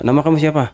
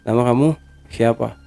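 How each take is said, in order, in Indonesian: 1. Diucapkan dengan tempo biasa, normal. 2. Diucapkan pelan dengan nada datar dan memanjang. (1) "biasanya nanya kan kayak kayak kita normal nih" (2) "agak landai gitu"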